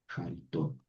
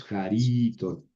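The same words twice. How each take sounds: First: Jaritón with the accent on the last syllable TÓN; quiet, low Jaritón stressed at the very end; stress on final syllable. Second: Jarito stressed on the middle syllable RI; wrong accent placement. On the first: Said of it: "el acento siempre va a ir al final". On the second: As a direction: stretch the RI in jarito, leaving the last syllable light. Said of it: "No es jarito". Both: Shown as a demonstration.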